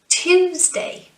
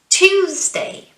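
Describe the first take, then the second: No difference in how they are said.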